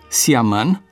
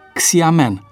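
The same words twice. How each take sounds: First: The word begins with a plain s sound. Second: The word begins with a ks sound. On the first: The speaker calls it right. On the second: The speaker calls it wrong.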